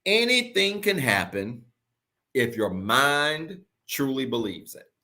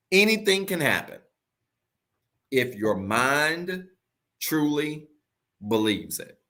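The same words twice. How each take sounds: First: Drawn out slowly, each word weighed; slow deliberate declaration; slow emphatic. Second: If your mind truly believes it, broken by long pauses; slow pause-filled emphasis. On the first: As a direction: lay it down slow for the recording. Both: Shown as a demonstration. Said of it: "I want you to record this".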